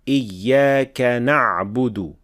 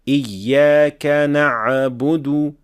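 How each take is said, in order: First: The ayn has no added echoing bounce. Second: The ayn has an added echoing bounce. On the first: The speaker calls it right. "without qalqala" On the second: The speaker calls it wrong. "add qalqala on the ayn"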